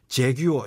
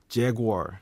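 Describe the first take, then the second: First: Every syllable is pronounced strongly and distinctly. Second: The ending is softened and slightly slurred. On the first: The speaker calls it wrong. "재규어 이렇게 좀 강한 발음, 이런 식으로는 좀 나오지 않죠" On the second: The speaker calls it right. "마지막에 약간 뭉개지는 좀 발음"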